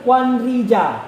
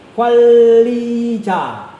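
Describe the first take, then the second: First: The middle consonant is an N sound. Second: The middle consonant is an L sound. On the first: This follows the written spelling. "penulisan dan pelafalannya belum tentu sama" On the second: This is how the word is actually spoken. "Kwanri dibaca menjadi kwalijaga"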